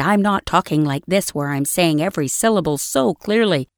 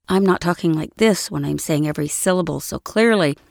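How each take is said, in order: First: Every syllable crisp and fully pronounced; overly precise diction, mouth wide open on every sound; over-articulated. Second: Said in the usual way. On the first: Shown as a demonstration. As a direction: enunciate each syllable like a careful e-learning read. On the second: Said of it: "If I said that same thing".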